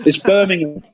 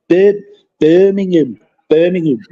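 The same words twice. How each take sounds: First: Said in the usual way. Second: Put-on "Birmingham" said in a light Brummie accent, as the locals say it. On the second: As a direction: mimic how Birmingham people say "Birmingham". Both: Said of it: "as they say".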